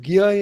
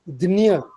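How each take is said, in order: First: The cluster is sounded like gya. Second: The cluster is sounded like dnya. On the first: This is how it is said in Hindi. "and then you get Gya in Hindi" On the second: This is how it is said in Marathi. "So Marathi pronunciation Dinya"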